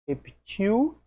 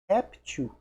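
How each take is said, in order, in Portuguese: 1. A tônica está na última sílaba. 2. A tônica está na primeira sílaba. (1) "oxítono" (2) "tem acento, é paroxítono"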